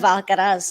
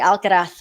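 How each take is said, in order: First: It is pronounced the Latin American Spanish way. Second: It is pronounced the way Spain's Spanish does. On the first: "rather than from uh, Latin America ... instead of Alcaraz" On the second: "I speak Spanish from from Spain ... I'm conditioned to say Alcaraz"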